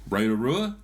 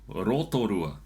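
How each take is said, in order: First: It is said with English-style vowel sounds. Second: It is said with Māori vowel sounds. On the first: The speaker calls it wrong. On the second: The speaker calls it right.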